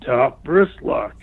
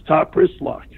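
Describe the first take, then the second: First: Slow, drawn-out Top wrist lock; drawn-out repeat. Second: Said in the usual way. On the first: Retold or imitated. The opponent calls the hold a second time, slowly drawn out. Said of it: "So he says it to me again".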